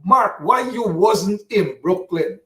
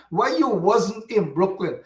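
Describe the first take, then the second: First: Slow, mocking drawn-out question; mocking the questioner. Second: Said in the usual way. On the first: Radio host mocking a caller who asks Mark why he wasn't in Brooklyn, slow and scornful. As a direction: parrot the critic with scorn. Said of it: "Some Anthony Smith coming here".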